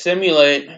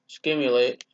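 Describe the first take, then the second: First: It begins with a plain 'sim' sound. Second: It begins with an added 'k', as 'skim'.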